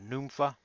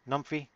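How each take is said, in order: First: The word ends in an 'ah' sound. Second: The word ends in an 'ee' sound. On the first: The speaker calls it right. "The pronunciation is going to be numpha" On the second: The speaker calls it wrong. "looks like numphy to me"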